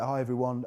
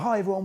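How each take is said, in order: First: It is said flatly, with low energy. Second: It is said brightly, with high energy. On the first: The host seems uninterested in the content. The speaker calls it wrong. "that sounds boring" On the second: The host is eager to share the content. The speaker calls it right. "that sounds more enthusiastic and uplifting"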